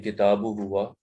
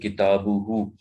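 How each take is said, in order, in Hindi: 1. सर्वनाम अलग 'huwa' के रूप में बोला गया है। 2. सर्वनाम जुड़े हुए छोटे 'hu' के रूप में बोला गया है। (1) "कभी हमने किताबु हुआ नहीं सुना होगा" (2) "हम कहते हैं किताबु हु"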